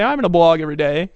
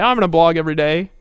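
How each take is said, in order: First: Loud, eager mock vow; mock promise. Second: Loud eager mock vow again; mock promise. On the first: Mocking a member's empty promise, loud and eager. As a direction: parody the eager newbie. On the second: Mocking a member's empty pledge, loud. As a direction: parody the overpromiser.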